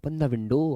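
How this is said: It sounds friendly and caring, like advice. Doing it would be good for the listener. "Advice, अरे भाई window खोल ले"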